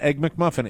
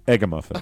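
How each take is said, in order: First: The middle syllable is said as a full 'mac'. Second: The middle syllable is reduced to a short 'uh'. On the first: The speaker calls it wrong. "It is not Egg McMuffin" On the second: The speaker calls it right. "that is the correct pronunciation. It is Egg-a-Muffin"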